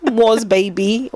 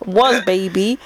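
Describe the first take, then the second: First: Put-on stretched slow was baby; slow drawn-out was. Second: Said in the usual way. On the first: Shown as a demonstration.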